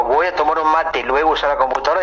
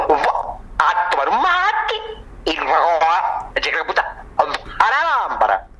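First: Said in the usual way. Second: Absurdly distorted words with stretched, swooping vowels; strangled, broken-up nonsense delivery; garbled silly pronunciation. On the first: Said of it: "cuando digo". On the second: Shown as a demonstration. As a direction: mangle each word, halting and drawling "mate".

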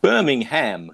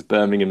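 First: "Birmingham" with the ending said as "ham", as in Alabama; "Birmingham" said the American way, ending "-ham". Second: "Birmingham" with a weak "-um" ending, as in England; "Birmingham" said the English way, ending "-um"; British Birmingham. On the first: Correcting himself after saying the city name the Alabama way. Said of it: "that's not Birmingham, Alabama". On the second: Naming the real West Midlands city the English way. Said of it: "This is Birmingham in the West Midlands". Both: Shown as a demonstration.

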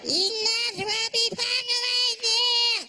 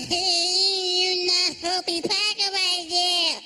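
First: High, slow brother voice again; imitating his brother. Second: Higher, slow brother voice; imitating his brother. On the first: Comic brother repeating it to the driver, higher and slow. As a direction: drag the repeat higher still. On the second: Comic brother talking to the driver, high and slow. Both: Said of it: "he started talking".

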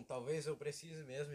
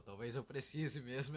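First: Slow, grave mock delivery, a touch louder; imitating serious friend. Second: Slow mock-serious delivery, a touch louder; imitating serious friend. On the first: Quoting his friend's serious line slowly, gravely. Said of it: "e ficou sério". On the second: Imitating his friend's sudden serious admission slowly. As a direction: repeat his line slowly and gravely. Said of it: "tu soltou um".

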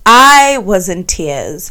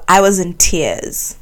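First: I was in tears said slowly, each word weighted; slow emphatic repeat. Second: Said in the usual way. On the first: Real, not acted. Telling listeners about her awful day, slow and emphatic. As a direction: lean on it, drag out I was in tears.

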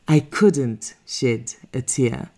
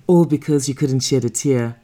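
First: Slow, with "I" weighed heavily; stress on I. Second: Said in the usual way. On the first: A narrator's reading. Repeated with stress on I.

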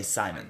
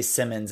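First: "Simon" with a long i, as in "sigh"; her own pronunciation. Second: "Simmons" with a short i, as in "him"; usual pronunciation. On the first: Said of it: "she'd say Simon". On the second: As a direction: say "Simmons" with a short first vowel. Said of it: "they would say Simmons". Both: Shown as a demonstration.

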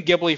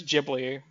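First: Ghibli said "GIB-lee", with a hard g; habitual hard g. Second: Ghibli said "JIB-lee", with a soft g; corrected soft g. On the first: Host admitting a long-held pronunciation, hard-g Ghibli. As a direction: start Ghibli with the g of "give". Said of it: "I've been saying Ghibli forever". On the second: Host conceding the other pronunciation, soft-g Ghibli. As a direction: start Ghibli with a j sound. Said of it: "but if it's Ghibli". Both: Shown as a demonstration.

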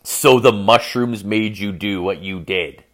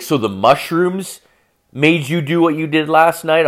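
First: Slow, measured ominous restatement; ominous quote. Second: Mock a girlfriend's disbelieving question; incredulous questioning. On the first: Retold or imitated. Storyteller repeating girlfriend's words as a warning, ominous. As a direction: repeat it slowly as a warning sign. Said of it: "When somebody says to you". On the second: Girlfriend questioning boyfriend about last night, incredulous.

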